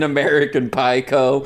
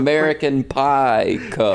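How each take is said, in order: First: It is said at normal speed. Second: It is said slowly.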